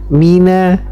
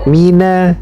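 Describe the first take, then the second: No difference in how they are said.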